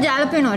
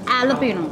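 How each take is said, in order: First: The word begins with a j sound. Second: The word begins with an h sound. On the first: The speaker calls it wrong. "It's not jalapeno" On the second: The speaker calls it right. "J silent"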